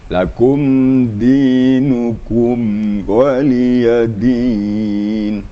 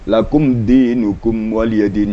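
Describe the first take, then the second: First: The m passes smoothly at an even, unhurried pace. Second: The m is rushed and skipped over too quickly. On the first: The speaker calls it right. "di suara jangan ditahan, hanya lewat saja" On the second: The speaker calls it wrong. "Ada juga orang terlalu cepat, takut dengung"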